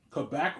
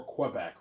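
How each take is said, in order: First: "Quebec" starting with a plain k; "Quebec" pronounced kuh-BEC. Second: "Quebec" starting with a kw sound; "Quebec" pronounced kweh-BEC. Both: Shown as a demonstration. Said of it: "two ways of pronouncing it".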